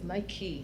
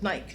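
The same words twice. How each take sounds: First: It is said with an American pronunciation. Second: It is said with a British pronunciation. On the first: "I think it's Nike here in America" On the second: "but Nike in England"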